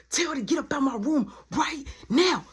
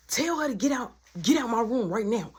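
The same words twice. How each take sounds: First: High, emphatic acted order; mimicked exasperated outburst; heated demand. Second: Raised, insistent order; acted heated instruction; urgent demand. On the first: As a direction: punch out each of the last words. Acted demand repeated more forcefully. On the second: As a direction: demand it in one quick run. Acted demand in quarrel, first take.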